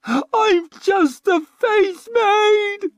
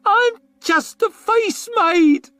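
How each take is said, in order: First: Very high, loud, very slow crying shriek; a high, drawn-out sobbing shriek. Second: Very high, loud, slow squeal; a high, drawn-out frightened squeal. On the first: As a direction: wail it in desperation. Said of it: "she shrieked". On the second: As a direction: plead in terror. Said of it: "she squealed". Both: A narrator's reading.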